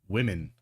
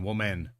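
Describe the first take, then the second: First: The first vowel sounds like 'wih', as in women. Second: The first vowel sounds like 'woo', as in woman. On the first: The speaker calls it right. "It's women, not woman" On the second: The speaker calls it wrong. "He's saying woman"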